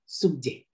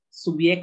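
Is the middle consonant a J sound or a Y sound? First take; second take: J sound; Y sound. First: The middle consonant sounds like a j. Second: The middle consonant sounds like a y. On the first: The speaker calls it right. "melainkan subjek" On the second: The speaker calls it wrong.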